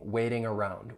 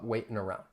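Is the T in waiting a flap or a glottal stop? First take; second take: flap; glottal stop. First: The T is a flap, with full ing ending. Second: The T is a glottal stop, linked into around. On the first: "just use a flap T and say the ing" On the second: "I'm going to use that glottal stop"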